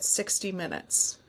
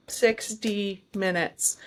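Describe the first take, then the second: First: Said in the usual way. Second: Slow, deliberate "sixty", spaced out to mean exactly that; stress on "sixty". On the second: Shown as a demonstration. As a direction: stretch "sixty minutes" out, precise and measured. Stresses exactly sixty, not fifty-nine.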